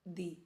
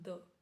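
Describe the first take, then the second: First: The vowel is a long 'ee' sound. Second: The vowel is a short 'uh' sound. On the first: The next word starts with a vowel. "before vowel we will say the ... correct pronunciation will be दी" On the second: The next word starts with a consonant. "with consonant we will say द"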